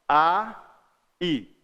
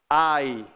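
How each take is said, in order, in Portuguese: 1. As duas vogais são ditas separadas, como duas sílabas. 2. As duas vogais deslizam juntas numa só sílaba. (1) "Separadinho, né? Duas vogais" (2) "quase junto. Uma vogal e uma semivogal"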